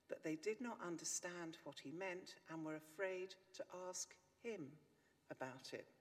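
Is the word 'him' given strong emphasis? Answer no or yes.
yes. The word 'him' carries strong stress. They asked each other instead of asking him. "Change the emphasis and you get"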